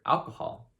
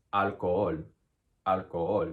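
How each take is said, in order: First: Said in the usual way. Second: Alcohol as al-ko-OL, silent h; Spanish pronunciation. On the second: Shown as a demonstration. Teacher giving the Spanish answer, alcohol as al-ko-OL. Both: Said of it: "How would you pronounce alcohol in Spanish".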